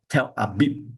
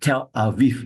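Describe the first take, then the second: First: The second word has a B sound in the middle. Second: The second word has a V sound in the middle. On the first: This is the older way of saying the name. The speaker calls it wrong. "not Tel Abib" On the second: This is the modern way of saying the name. The speaker calls it right. "we always pronounce this as Tel Aviv"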